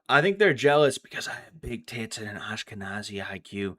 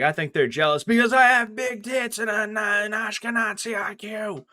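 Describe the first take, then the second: First: It is said at a normal, conversational volume. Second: It is yelled out at a loud volume. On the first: This is how the line was meant to be delivered. "it was supposed to be" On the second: The line was overdone, as if she were drunk. "Instead, she yelled it louder"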